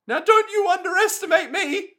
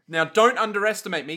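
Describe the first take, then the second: First: It is said in a put-on Koichi voice. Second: It is said in his ordinary voice.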